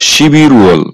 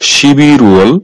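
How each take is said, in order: The two takes are said the same way.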